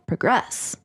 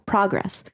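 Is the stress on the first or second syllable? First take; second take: second; first. First: The stress is on the second syllable. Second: The stress is on the first syllable. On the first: It is used as a verb. "Whenever it's a verb, putting the word stress on the second syllable" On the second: It is used as a noun. "whenever it's a noun on the first syllable"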